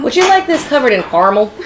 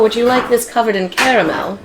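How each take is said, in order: First: It is said in a plain, ordinary manner. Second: It is said in a fancy, sophisticated manner.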